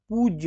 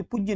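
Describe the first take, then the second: First: पूज्य with a long oo, "poojya"; long vowel. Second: पूज्य with a short u, as "pujya"; wrong-example पूज्य, short u; wrong short vowel. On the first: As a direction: stretch the u in पूज्य. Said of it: "बड़ी ऊ की मात्रा लगेगी". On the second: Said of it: "जबकि पूज्य नहीं होता है". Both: Shown as a demonstration.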